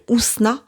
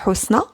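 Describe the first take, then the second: First: The name is said with a French pronunciation. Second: The name is said with an Arabic pronunciation. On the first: This is how French speakers usually say it. "en français, on m'appelle Ousna" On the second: This is the original form of the name. "mon prénom en en arabe, c'est Housna"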